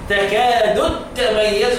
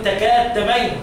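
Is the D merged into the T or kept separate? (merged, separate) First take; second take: separate; merged. First: The D is pronounced separately before the T. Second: The D is merged into the following T. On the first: The speaker calls it right. "لا" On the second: The speaker calls it wrong. "اوعى تضغم الدال في التاء تقول"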